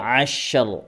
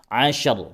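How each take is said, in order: First: The sh is fully held before the r. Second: The sh is rushed straight into the r. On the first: The speaker calls it right. "disempurnakan dulu sukunnya" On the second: The speaker calls it wrong. "Bukan ashar"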